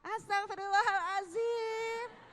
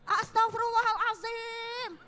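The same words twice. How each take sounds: First: It is said in a warm, gentle tone. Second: It is said in a harsh, angry tone. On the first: The speaker is being kind to the child. The speaker calls it right. "wah mama wajahnya ramah" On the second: The speaker is scolding the child. The speaker calls it wrong. "ngucapnya istighfar tapi matanya melotot"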